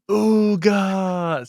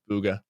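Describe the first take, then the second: First: High, loud drawn-out yell; imitating someone yelling out a name; Courage. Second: Said in the usual way. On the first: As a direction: holler it like a long stretched battle cry. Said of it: "yelling out his name". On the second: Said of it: "that's how I hear it in my head".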